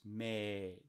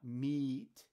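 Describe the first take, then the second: First: The vowel is a long 'ay' sound. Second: The vowel is a long 'ee' sound. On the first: This is the older Middle English pronunciation. "it was made. Those are all Middle English" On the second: This is the modern pronunciation. "the next word is not meat"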